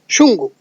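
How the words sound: It is pronounced the San Martin Quechua way. "in the San Martin re- region ... they say Shungu"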